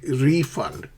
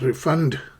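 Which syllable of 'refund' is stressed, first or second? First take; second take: first; second. First: The stress is on the first syllable. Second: The stress is on the second syllable. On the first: The speaker calls it right. "So stress the first syllable, re" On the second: The speaker calls it wrong. "not refund"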